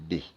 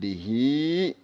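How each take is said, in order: First: The word ends on a bare consonant. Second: The word ends with a final vowel. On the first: The speaker calls it right. "Apabila waqaf sukun bih" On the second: The speaker calls it wrong. "Jangan bihi ya"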